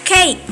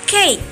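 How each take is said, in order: Both takes have the same delivery.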